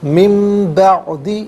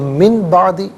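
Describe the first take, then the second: First: The n before b becomes a nasal m. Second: The n before b is a plain n. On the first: The speaker calls it right. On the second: The speaker calls it wrong.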